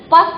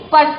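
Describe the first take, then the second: First: पस said with no r sound between प and स; wrong without r. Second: पर्स with a light half r before स; correct half r. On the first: Teacher to children, showing the wrong पस without r. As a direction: drop the r and say पस. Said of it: "पस नहीं बोलते हैं". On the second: Teacher to children, showing the right पर्स with half r. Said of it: "लेकिन पर्स". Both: Shown as a demonstration.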